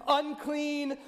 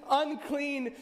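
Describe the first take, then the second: Both takes have the same delivery.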